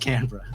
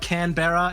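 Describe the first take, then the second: First: The ending is reduced to a short 'bruh'. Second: The ending is said as a full 'berra'. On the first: The speaker calls it right. "you know how to say bruh. So just Canberra" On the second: The speaker calls it wrong. "It's not Canberra"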